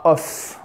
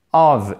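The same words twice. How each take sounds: First: OF ending in a voiceless F, "off"; wrong F ending. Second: OF ending in a V sound, "ov"; voiced ending. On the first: Teacher showing the mistake to avoid, F ending. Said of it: "non pas of aussi". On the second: Teacher modelling the correct word, V ending. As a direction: finish OF on a long buzzing V. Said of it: "Of et non pas of". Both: Shown as a demonstration.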